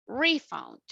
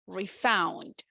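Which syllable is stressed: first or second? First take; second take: first; second. First: The stress is on the first syllable. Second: The stress is on the second syllable. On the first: The word is used as a noun. "If you want to use it as a noun, the stress is in the first syllable" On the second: The word is used as a verb. "As a verb, ... the stress will be in the second syllable"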